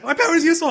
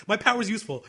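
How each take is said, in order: First: Very high, loud mocking mimicry; Kotori. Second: Put-on higher-pitched quoted girl; Kotori. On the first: Mocking the character's claim about her power, shrieky derision. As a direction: parody her insistence, pitch way up. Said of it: "She's like". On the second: Quoting the character defending her power, mildly insistent. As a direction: lightly voice an insistent anime girl. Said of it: "she literally says".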